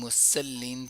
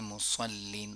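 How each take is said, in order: First: The s sound is thin and light. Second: The s sound is full and heavy. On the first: The speaker calls it wrong. "पढ़ लिया तो बहुत बड़ी मिस्टेक हो गई" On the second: The speaker calls it right. "सौद जो है पुर अदा होता है"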